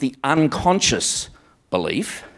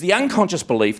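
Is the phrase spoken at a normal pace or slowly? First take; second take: slowly; normal. First: It is spoken slowly and deliberately. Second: It is spoken at a normal pace.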